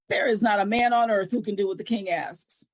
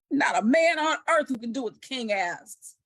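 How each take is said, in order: First: It is read in a plain, calm way. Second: It is said forcefully, with exclamation.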